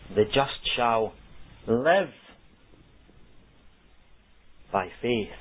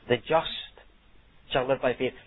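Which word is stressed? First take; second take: live; just. First: The stress falls on the word live. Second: The stress falls on the word just. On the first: The focus is on how one is living now. "the emphasis is on the word live" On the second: The righteous are contrasted with the wicked. "the emphasis is on the just"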